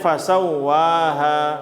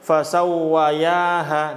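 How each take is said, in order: First: No 'y' sound comes before the final 'ha'. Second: A 'y' sound comes before the final 'ha'. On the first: The speaker calls it right. "Jadi bacanya fasawwaha" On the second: The speaker calls it wrong. "Jangan bacanya fasawwayaha"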